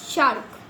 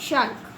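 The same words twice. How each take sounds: Both takes have the same delivery.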